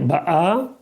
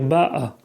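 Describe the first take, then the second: First: The stress is on the last syllable. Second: The stress is on the first syllable. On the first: The speaker calls it wrong. "il ne faut pas dire ba'a" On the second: The speaker calls it right. "il faut dire ba'a. L'accent tonique au début"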